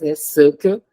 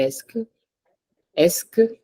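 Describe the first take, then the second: First: "est-ce que" in separate syllables, es-suh-kuh; "est-ce que" drawn out part by part; as written. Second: "est-ce que" run together as es-kuh; as spoken. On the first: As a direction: spell out "est-ce que" with the middle vowel sounded. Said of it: "I have to write it as". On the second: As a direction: say "est-ce que" in two syllables, no middle vowel. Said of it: "but when I say it". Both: Shown as a demonstration.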